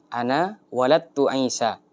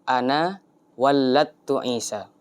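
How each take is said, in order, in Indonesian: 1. Bunyi l pada kata kerja dibaca pendek, tunggal. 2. Bunyi l pada kata kerja dibaca ganda. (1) "dengan lam yang tidak ditasydid" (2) "dengan lam yang dibaca tasdid"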